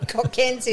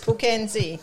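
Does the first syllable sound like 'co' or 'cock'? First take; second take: cock; co. First: The first syllable ends with a k sound. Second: The first syllable has no k sound. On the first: "quite a lot of cocks are called Co" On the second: "quite a lot of cocks are called Co"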